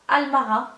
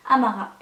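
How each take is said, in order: First: Almara with an L after the first A; mistaken L sound. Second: Amara with no L before the M; corrected, no L. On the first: Vlogger misreading a perfume name, Almara with an L. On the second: Vlogger correcting the perfume name, Amara without L. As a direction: say Amara, first A straight into M. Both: Real, not acted. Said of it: "il n'y a pas de L".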